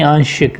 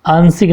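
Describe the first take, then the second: First: "आंशिक" with a sh sound; correct pronunciation. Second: "आंशिक" said as aansik, with s; wrong pronunciation. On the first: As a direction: say "आंशिक" as aan-shik. ("आंशिक" में श, सही उच्चारण) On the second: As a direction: use a plain s in "आंशिक". ("आंशिक" को आंसिक बोलना) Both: Shown as a demonstration. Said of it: "आंशिक नहीं".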